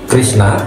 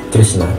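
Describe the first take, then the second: The two takes are said the same way.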